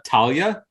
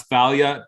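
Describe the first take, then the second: First: Talia begun with a plain T, "TAL-ya"; hard T. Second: Thalia begun with a TH sound; soft TH. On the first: Co-host offering the other reading, Talia with a hard T. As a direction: start Talia on a hard "t", rising. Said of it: "earlier this week pronounce Thalia, Talia". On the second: Co-host quoting what they heard at the game store, Thalia with a TH. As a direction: start Thalia on "th", not "t". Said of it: "earlier this week pronounce Thalia". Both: Shown as a demonstration.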